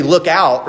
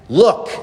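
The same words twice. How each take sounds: First: Mock warning look out. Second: Curt rude look. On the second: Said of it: "I don't think I've ever told my dad". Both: Shown as a demonstration.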